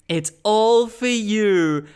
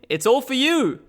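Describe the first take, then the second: First: It is said in an eerie, trance-like way. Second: It is said in a casual, ordinary way. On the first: The speaker seems possessed. The speaker calls it right. "her delivery in the original" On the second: The speaker seems like an ordinary person. The speaker calls it wrong. "less ominous"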